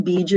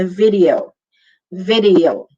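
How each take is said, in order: First: "video" as two syllables, bid-yo; squashed Filipino-style "video"; Tagalog pronunciation. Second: "video" as vi-dee-o, three syllables; careful English "video"; English pronunciation. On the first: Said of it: "Mahilig tayo mag-videoke". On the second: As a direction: give "video" a v and a separate ee before o. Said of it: "it's an English word". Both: Shown as a demonstration.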